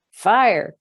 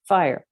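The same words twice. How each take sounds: First: High, loud cry of alarm; full loud fire alarm cry. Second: Milder repeated cry. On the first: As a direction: shout it as the house fills with smoke. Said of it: "cried Missus Prothero". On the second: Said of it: "I wish I could do that in a Welsh accent". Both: Acted.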